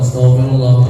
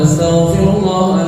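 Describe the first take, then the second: First: It is said quickly, sped up. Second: It is said at a slower, normal pace.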